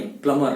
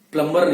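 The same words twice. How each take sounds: First: प्लम्बर as plumma, no b; correct pronunciation. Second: प्लम्बर with b sounded; wrong pronunciation. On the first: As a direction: drop the b in प्लम्बर. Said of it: "प्लम्बर बोलना है". (प्लम्बर बिना b, सही उच्चारण) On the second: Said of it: "प्लम्बर नहीं". (प्लम्बर b के साथ, गलत उच्चारण) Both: Shown as a demonstration.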